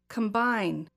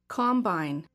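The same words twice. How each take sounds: First: The stress is on the second syllable. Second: The stress is on the first syllable. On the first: It is used as a verb. "the verb second" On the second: It is used as a noun. "I will say the noun first"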